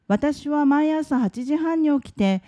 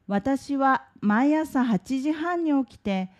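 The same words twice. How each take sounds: First: It is read at a natural, faster pace. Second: It is read at a slower, careful pace.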